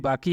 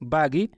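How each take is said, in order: First: The middle consonant is a k sound. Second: The middle consonant is a g sound. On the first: This is the standard Arabic form. "अरबी में भी बाकी ही होता है" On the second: This is how people say it locally. "काफ को गाफ की तरह पढ़ते हैं"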